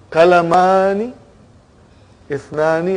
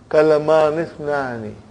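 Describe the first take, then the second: First: The two words are said separately. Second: The two words run together as one.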